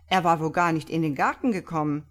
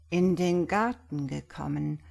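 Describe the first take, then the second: First: Brisk, louder mockery; open scorn. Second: Musing. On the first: Iwan mocking the priest's claim, open scorn. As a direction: jeer it quickly and forcefully. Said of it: "Iwan zu offenem Hohne". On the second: Priest echoing Iwan's words, still musing. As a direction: repeat it as if pondering. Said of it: "wiederholte Brown noch immer sinnend". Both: A narrator's reading.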